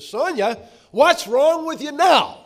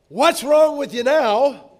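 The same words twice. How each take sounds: First: Sharp, much higher and louder, slowing on the blame; harsh words. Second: Much higher, louder, slow exasperated jab; harsh words. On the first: Husband snapping harshly at his upset wife. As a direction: snap at her with exasperated blame. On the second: Preacher quoting a husband's harsh words to his wife. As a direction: hurl it as a sharp accusation. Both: Retold or imitated. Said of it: "But harsh words like".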